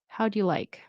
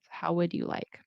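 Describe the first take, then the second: First: The word 'would' is contracted to 'how'd'. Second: The word 'would' is said in full.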